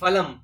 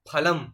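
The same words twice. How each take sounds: First: The first sound has an Urdu-like pronunciation. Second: The first sound has no Urdu-like pronunciation. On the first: The speaker calls it wrong. "কিন্তু সেটি ঠিক নয়।" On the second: The speaker calls it right. "আমাদের এখানে আছে ফলম।"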